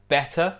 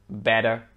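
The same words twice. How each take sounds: First: Better with a clear British T. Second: American better with T like a D; American accent. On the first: Teacher comparing British with American, better with clear T. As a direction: say better with the T sounded, not a D. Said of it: "Better, British". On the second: Teacher comparing British with American, better in American accent. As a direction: say better as bedder, American style. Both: Shown as a demonstration.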